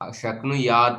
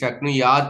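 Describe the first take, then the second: First: The word ends with a short final 'a' vowel. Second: The word ends on a bare 't' consonant. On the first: The speaker calls it right. "अंतिम में आकार है" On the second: The speaker calls it wrong. "हलंत जैसे उच्चारण कर लेते हैं"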